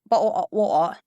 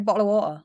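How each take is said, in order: First: It is an exaggerated, put-on British accent. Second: It is a natural, everyday British accent.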